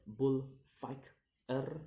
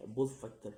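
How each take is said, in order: First: "bullfighter" very slow in three beats, rising at the end; syllable by syllable. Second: Said in the usual way. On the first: Shown as a demonstration. Teacher demonstrating syllables, "bullfighter" slow and split. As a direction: pause between each syllable of "bullfighter". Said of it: "three syllables to say". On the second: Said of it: "the ending er".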